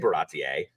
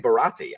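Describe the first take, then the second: First: The name ends in an eer sound. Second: The name ends in an ee sound. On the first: This is the form the speaker refuses to use. "I'm not going to say Baratier" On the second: This is the form the speaker uses. "I say Barati"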